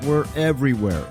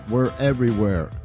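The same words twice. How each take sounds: The two takes are said the same way.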